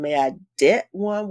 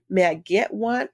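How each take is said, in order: First: The word starts with a front D sound. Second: The word starts with a back G sound. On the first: The speaker calls it wrong. "with a D" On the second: The speaker calls it right. "giving me a G in the back"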